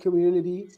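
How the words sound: The middle t sounds like a soft d. "T between two uh, vowels in American, we can see it uh, pronounced like da"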